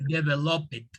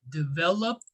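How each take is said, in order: First: The word ends with an extra id syllable. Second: The word ends with a short t sound. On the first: The speaker calls it wrong. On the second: The speaker calls it right. "it's a T sound"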